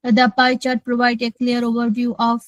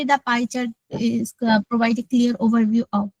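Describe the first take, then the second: First: A fuller voice, read very slowly. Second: Said in the usual way. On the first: Shown as a demonstration. Student shows the teacher her fuller test voice. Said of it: "ভরাট গলাটা কোনটা একটু বলেন তো". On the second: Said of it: "আর normally তো বলি".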